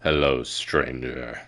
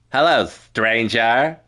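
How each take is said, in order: First: Low, slow, quiet stranger greeting; trial character voice. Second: Slow, lilting stranger greeting, rising at the end; trial character voice. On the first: Streamer auditioning a voice for a stranger, low slow greeting. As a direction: drop deep and stretch it out slowly. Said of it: "what voice should they have". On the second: Streamer trying another voice for the stranger, slow lilting greeting. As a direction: draw it out with an upward lilt. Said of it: "Maybe that". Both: Shown as a demonstration.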